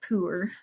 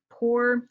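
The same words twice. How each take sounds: First: The vowel is a long oo sound. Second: The vowel is not a long oo sound. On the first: This is the usual pronunciation elsewhere. "instead of poor" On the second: This is how the local dialect says it. "poor isn't pronounced with a double O sound, but more like poor"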